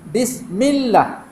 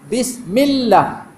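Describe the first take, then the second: Both takes have the same delivery.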